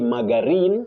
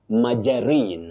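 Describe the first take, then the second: First: The G is said as a hard G. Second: The G is said like a J. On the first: The speaker calls it wrong. "the G takes the sound J, not G. You don't say margarine" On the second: The speaker calls it right. "but you say margarine, maja"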